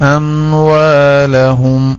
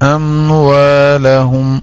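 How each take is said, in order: Both takes have the same delivery.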